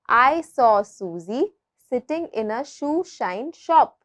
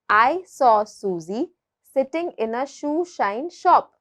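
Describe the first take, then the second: No difference in how they are said.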